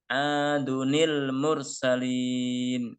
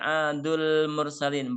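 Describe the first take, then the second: First: An extra 'ni' syllable is added before 'l'. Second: It runs straight into 'l' with no added 'ni'. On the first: The speaker calls it right. "Ini cara membacanya" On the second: The speaker calls it wrong. "ini tidak dibaca adul mursalin, bukan"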